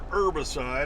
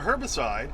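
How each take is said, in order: First: The initial H sound is silent. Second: The initial H sound is pronounced.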